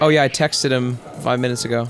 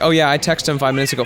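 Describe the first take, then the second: First: The verb has an extra -ed syllable. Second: The verb is said without an -ed ending. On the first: "I don't say like" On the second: "I do that with text"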